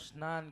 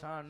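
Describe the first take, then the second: First: The word begins with an 's-n' cluster. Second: The word begins with a single 'sh' sound. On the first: The speaker calls it right. "અરે બાપુ સ્નાન કહેવાય" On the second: The speaker calls it wrong. "શાણ નો કહેવાય"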